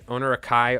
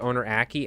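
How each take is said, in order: First: The name ends with an 'eye' sound. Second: The name ends with an 'ee' sound. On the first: "I've called them Akai this whole time" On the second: "I think it's Owner Aki"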